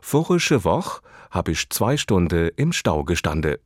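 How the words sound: It is said with a Hessian dialect pronunciation. "würde in Hessen deshalb lauten"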